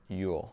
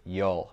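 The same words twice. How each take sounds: First: "you'll" said like "yule"; "you'll" with the full vowel of "you". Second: Midwestern "you'll", said like "yol"; "you'll" with a Midwestern o vowel. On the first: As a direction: rhyme "you'll" with "fool". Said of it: "au lieu de dire". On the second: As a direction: rhyme "you'll" with "hole", Midwest style. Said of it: "mon accent, euh, du Midwest". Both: Shown as a demonstration.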